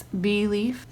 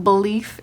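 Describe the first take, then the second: First: Slow "belief", said bee-lief; full first vowel. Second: "belief" with a swallowed first vowel, buh-lief; incorrect pronunciation, reduced vowel. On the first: Teacher showing the correct way, "belief" as bee-lief. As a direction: give "belief" a clear long e first. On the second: Teacher showing the wrong way, "belief" as buh-lief. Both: Shown as a demonstration. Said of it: "incorrect and correct pronunciation of common words".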